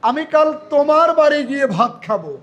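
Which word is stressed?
তোমার. The stress is on the word তোমার. It will be at this listener's house, not another's. "তোমার শব্দটা হবে সবার চেয়ে জোরে"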